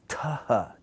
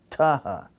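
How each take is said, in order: First: It starts with a t plus a puff of air. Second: It starts with a t plus a puff of air.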